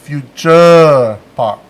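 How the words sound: The name has a Thai pronunciation. "Thais pronounce it Future Park"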